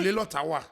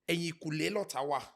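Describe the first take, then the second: First: It is said at normal conversational speed. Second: It is said slowly and carefully.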